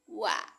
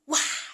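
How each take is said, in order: First: The syllable is said lightly and easily. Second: The syllable is said heavily and forcefully. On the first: The speaker calls it right. "ringan aja" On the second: The speaker calls it wrong. "bukan wah"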